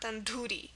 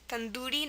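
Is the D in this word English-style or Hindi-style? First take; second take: English; Hindi. First: The D has a plain English sound. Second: The D has its original Hindi sound. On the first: The speaker calls it wrong. "not tandoori" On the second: The speaker calls it right. "originally it's pronounced tandoori"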